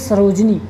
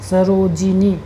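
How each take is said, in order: First: The name has three syllables, with no vowel after j. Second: The name has four syllables, with an i after j. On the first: The speaker calls it wrong. "ये गलत है" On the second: The speaker calls it right. "सरोजिनी इस प्रकार से होता है"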